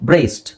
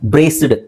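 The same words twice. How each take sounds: First: The word ends with a t sound. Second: The word ends with a d sound. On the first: The speaker calls it right. "Real pronunciation English ಅಲ್ಲಿ ಯಾವ ತರ ಹೇಳಬೇಕು" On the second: The speaker calls it wrong. "ಕನ್ನಡದಲ್ಲಿ ಇರೋ ತರ ನಾನು ಟಿ ಬದಲು ಡಿ ಹೆಂಗಿದೆ, ಡಿ ನೇ ಪ್ರೊನೌನ್ಸ್ ಮಾಡಿದ್ರೆ"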